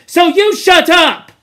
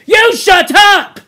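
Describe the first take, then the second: First: Loud, high brush-off; rude. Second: Slow, high, loud furious shout; fierce. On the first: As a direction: cut him down flatly. Jack silencing Piggy. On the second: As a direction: roar him into silence. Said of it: "Jack turned fiercely". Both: Acted.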